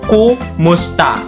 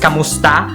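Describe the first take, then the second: First: The first vowel sounds like 'u'. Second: The first vowel sounds like 'a'. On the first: This is how it is said in Bisaya. The speaker calls it right. "We pronounce it as kumusta" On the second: This is how it is said in Tagalog. The speaker calls it wrong. "we don't say it as kamusta"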